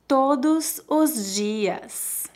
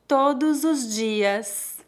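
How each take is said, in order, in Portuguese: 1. É dita devagar e com cuidado. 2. É dita num ritmo natural. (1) "Uma vez mais devagar" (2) "2 vezes mais naturalmente"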